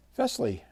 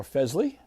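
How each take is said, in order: First: Fesley with a hissed S, FESS-lee; Fesley rhyming with "dressly"; soft S pronunciation. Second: Fesley with a buzzed Z, FEZ-lee; Fesley with Z in place of S; Z pronunciation. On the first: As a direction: say Fesley higher, with an unvoiced S. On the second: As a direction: say Fesley as "Fezley", rising. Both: Shown as a demonstration. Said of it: "how they pronounce their name".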